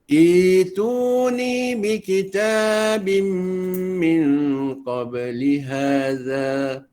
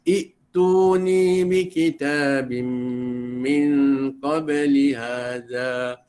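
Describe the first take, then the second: First: The opening vowel is lengthened to two counts. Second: The opening vowel is short, not lengthened. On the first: The speaker calls it right. "dibaca dengan dua harakat" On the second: The speaker calls it wrong. "Jangan baca"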